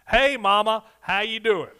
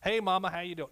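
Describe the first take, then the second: First: It is hollered loudly. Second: It is said at a normal volume.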